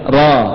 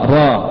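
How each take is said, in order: The two takes are said the same way.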